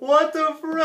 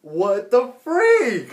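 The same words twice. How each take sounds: First: Higher, quicker what the freak; high disbelief. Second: Drawn out slowly in disbelief. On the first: Viewer repeating in disbelief, pitched higher. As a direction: fire it up high, incredulous. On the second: Viewer stunned by the cartoon, slow and drawn out. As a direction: stretch each word, stunned. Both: Real, not acted.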